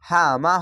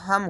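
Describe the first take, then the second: First: The syllable ends with an open vowel. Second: The syllable ends on a closed m sound. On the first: The reciter keeps going without stopping. "আর যদি না থামেন তাহলে" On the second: The reciter stops at this word. "আর থামতে গেলে হাম হবে"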